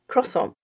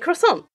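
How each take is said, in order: First: It is said the French way, stressed at first. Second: It is said the American way. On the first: The speaker calls it wrong. "In French, the emphasis is in the beginning symbol. But if I say it that way" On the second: The speaker calls it right. "So I say it in the American way"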